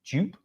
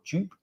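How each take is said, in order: First: The vowel matches the start of Jupiter. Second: The vowel matches the start of Jupiter.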